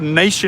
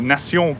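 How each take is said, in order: First: The name is said with an English pronunciation. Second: The name is said with a French pronunciation. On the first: "in English" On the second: "it's pronounced obviously differently"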